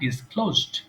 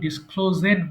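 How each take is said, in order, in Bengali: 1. শেষের অংশটি একটি সাধারণ 'd' ধ্বনি। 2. শেষের অংশটি একটি অতিরিক্ত সিলেবল হিসেবে বলা হয়। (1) "তোমরা বলবা ডিসক্লোজড" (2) "এটা অনেকে ভুল করে কিন্তু ডিসক্লোজেড বলে"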